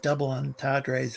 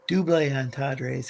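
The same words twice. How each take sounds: First: It is pronounced with plain English sounds. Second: It is pronounced with French sounds.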